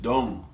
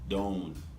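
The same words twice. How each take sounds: First: It is said in a Jamaican accent. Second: It is said in a standard accent.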